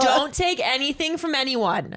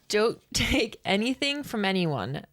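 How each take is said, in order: First: It is said in a put-on mom voice. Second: It is said in her normal voice.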